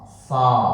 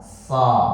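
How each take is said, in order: First: The vowel is said with still, unrounded lips. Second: The vowel is said with still, unrounded lips.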